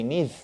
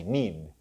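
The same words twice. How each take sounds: First: "need" with the final D misplaced off the palate; wrong final D. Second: "need" with a clean D on the palate; correct final D. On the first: Teacher shows students the mistake in need, wrong final D. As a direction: mispronounce the D ending "need". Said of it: "We don't say need". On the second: Teacher corrects the mistake for students, correct final D. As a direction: end "need" on a plain English D, falling. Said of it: "We say need". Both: Shown as a demonstration.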